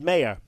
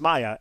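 First: The name is said with English pronunciation. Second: The name is said with German pronunciation. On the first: The speaker calls it wrong. "would often be called Meyer" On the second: The speaker calls it right. "but it's Maya"

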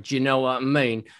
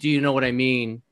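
First: It is said in a Cockney accent. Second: It is said in his ordinary accent.

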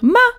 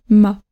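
First: The pitch rises on the syllable. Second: The pitch falls slightly on the syllable. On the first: It is an exclamation. "là ça monte parce que je ferai une exclamation" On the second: It is a neutral statement ending with a full stop. "ça descend légèrement"

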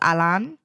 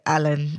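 First: The name is said with a Polish pronunciation. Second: The name is said with an English pronunciation. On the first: "When you pronounce it in a Polish way" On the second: "I say it in the English way"

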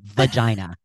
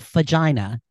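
First: The word begins with a V sound. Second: The word begins with an F sound. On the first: The speaker calls it right. "it's a vagina" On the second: The speaker calls it wrong. "I say with an F"

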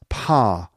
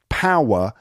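First: The vowel is flattened to one sound. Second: The vowel glides through three sounds.

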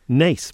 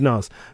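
First: The vowel sounds like the one in 'face'. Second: The vowel sounds like the one in 'gas'. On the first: The speaker calls it right. "it was very nice to be here in Nace" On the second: The speaker calls it wrong. "but she said Nas"

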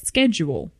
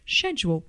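First: It is said with an American pronunciation. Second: It is said with a British pronunciation. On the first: "Americans say it's schedule" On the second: "the British say it as schedule"

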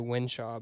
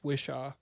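First: The name has an N sound: Winshaw. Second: The name has no N sound: Wishaw. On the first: The speaker calls it wrong. "I was about to say Winshaw" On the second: The speaker calls it right. "but it's Wishaw"

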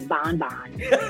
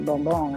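First: The word has an American English pronunciation. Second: The word has a Spanish pronunciation. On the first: "I'm not going to say bonbon" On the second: "because I speak Spanish. I'm Puerto Rican, so I'm going to say bonbon"

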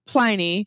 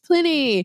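First: The first vowel is a long 'eye' sound. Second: The first vowel is a short 'it' sound. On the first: This is how the beer's name is said. "we call it Pliny with a long I" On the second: This is how the historical person's name is said. "it's pronounced Pliny. Well, you are correct"

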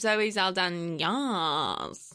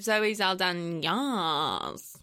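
First: It sounds hesitant and unsure. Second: The same.

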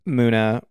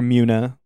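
First: The name begins with a plain 'moo' sound. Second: The name begins with a 'myoo' sound. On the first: "sometimes you have a Moomoo's" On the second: "or a Mew-Mew's"

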